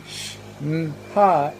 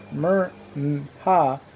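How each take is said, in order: First: Sh-Nha slowly, as separate sounds sh, n, ha; spelling sounded out. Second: Mer-Nha slowly, as separate sounds mer, n, ha; spelling sounded out. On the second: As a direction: say Mer-Nha piece by piece, starting with mer. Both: Shown as a demonstration. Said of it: "it is clear that both".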